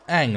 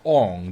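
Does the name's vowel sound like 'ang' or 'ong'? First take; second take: ang; ong. First: The vowel sounds like 'ang'. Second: The vowel sounds like 'ong'. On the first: The speaker calls it right. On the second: The speaker calls it wrong.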